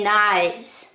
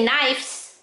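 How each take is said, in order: First: The word ends with a v sound. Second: The word ends with an f sound. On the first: The speaker calls it right. "I say knives" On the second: The speaker calls it wrong. "I don't say knives"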